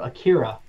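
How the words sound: The name is said the English way.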